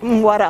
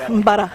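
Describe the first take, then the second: First: The middle consonant is a W sound. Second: The middle consonant is a B sound. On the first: This is the local Sankaran form. "Parfois les gens ici disent Mwara" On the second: This is the Malinké form. "les Malinkés ils disent Mbara"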